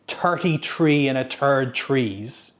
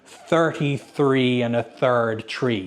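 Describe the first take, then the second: First: The th sounds are said like a plain t. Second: The th sounds are said with the tongue between teeth. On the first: This is how an Irish speaker would say it. "we don't have the T H sound. So I would be more likely to say" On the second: This is the version with the TH sound. "instead of"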